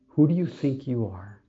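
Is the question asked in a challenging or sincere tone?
sincere. It is asked as a sincere, genuine question. The listener is asked what they truly believe about themselves. The speaker calls it right. "It's like, who do you believe you are?"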